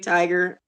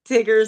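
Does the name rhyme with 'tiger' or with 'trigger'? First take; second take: tiger; trigger. First: The first vowel is long, like in 'tiger'. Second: The first vowel is short, like in 'trigger'. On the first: "some people say tiger. It, I say tiger" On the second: "Some people say t- t- Tigger"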